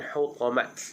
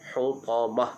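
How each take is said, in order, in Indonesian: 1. Kata itu berakhir dengan bunyi t. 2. Kata itu berakhir dengan bunyi h. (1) "bukan hutamat. Itu salah bacaannya" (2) "Ha, itu betul"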